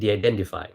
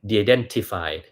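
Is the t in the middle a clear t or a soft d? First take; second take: soft d; clear t. First: The middle t is softened toward d. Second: The middle t is a clear t sound. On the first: This sounds like an American speaker. The speaker calls it right. "มันเป็น" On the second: This is how a Thai reader would say it. The speaker calls it wrong. "ไม่ใช่"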